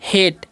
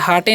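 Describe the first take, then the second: First: It is one syllable with an 'ay' vowel. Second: It is two syllables with an 'ah' vowel. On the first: The speaker calls it right. "तो इसे हम क्या पढ़ते हैं?" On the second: The speaker calls it wrong. "इसे हाटे नहीं पढ़ना है"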